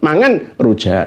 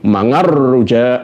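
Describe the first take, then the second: First: The n sound is pronounced clearly before rujak. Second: The n sound merges into the following r. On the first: The speaker calls it right. "sing jelas n-nya nunnya yang sukun itu" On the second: The speaker calls it wrong. "nggak perlu"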